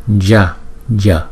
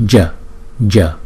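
No difference in how they are said.

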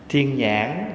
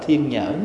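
First: It is said in a Southern Vietnamese accent. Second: It is said in a Northern Vietnamese accent.

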